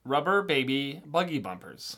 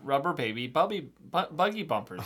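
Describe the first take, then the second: First: Put-on slow, careful Rubber baby buggy bumpers; slow tongue twister. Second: Stumbling on buggy, restarting; tongue twister slip-up. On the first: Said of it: "the next one". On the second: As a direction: trip over the word buggy. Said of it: "I'm starting to get a little slipped up". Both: Shown as a demonstration.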